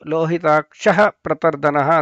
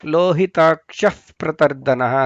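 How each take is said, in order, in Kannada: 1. p ಮೊದಲು ಸರಳ ಉಸಿರಿನ h ಬರುತ್ತೆ. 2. p ಮೊದಲು ಲೈಟ್ f ತರ ಶಬ್ದ ಬರುತ್ತೆ. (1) "ಅಂತ ಹೇಳೋದಲ್ಲ" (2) "ಫ ಸ್ವಲ್ಪ ಲೈಟಾಗಿ ಫ ಕೇಳಿಸುತ್ತಲ್ಲಿ"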